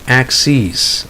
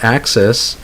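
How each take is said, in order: First: The last vowel is a long ee sound. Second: The last vowel is a short i sound. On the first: It is the plural of axis. "so it's a long e sound" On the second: It is the plural of ax. "plural of ax"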